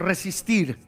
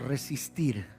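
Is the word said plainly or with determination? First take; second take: determined; plainly. First: It is said firmly, with strong determination. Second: It is said plainly, without special force.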